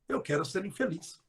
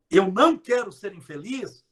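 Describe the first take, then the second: First: Softer, no não. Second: Não quero rising on não; stress on não. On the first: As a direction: drop it to a quiet aside. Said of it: "Corta o não". (mais baixo, sem o não) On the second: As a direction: lean on não. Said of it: "quando eu falo". (ênfase no não) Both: Shown as a demonstration.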